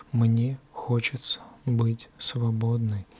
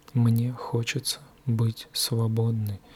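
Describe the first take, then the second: No difference in how they are said.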